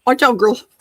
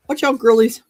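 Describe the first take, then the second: First: Loud call to the dogs. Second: Loud call to the dogs again. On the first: Calling to dogs. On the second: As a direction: call out, playful. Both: Real, not acted.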